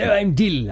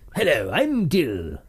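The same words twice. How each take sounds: First: It is spoken in a broad northern Yorkshire accent. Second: It is spoken in a posh upper-class English voice. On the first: The speaker calls it right. "He'd probably have more of a Yorkshire accent" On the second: The speaker calls it wrong. "That's more Prince Philip, isn't it?"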